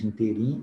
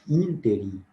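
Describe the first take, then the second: First: The stress is not on the third-to-last syllable. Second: The stress is on the third-to-last syllable. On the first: The speaker calls it wrong. "nós falamos interim" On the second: The speaker calls it right. "proparoxítonas"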